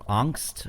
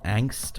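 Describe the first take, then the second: First: It is said with a German accent. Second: It is said with an English accent. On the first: "if you say it in a German accent" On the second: "It's called Angst"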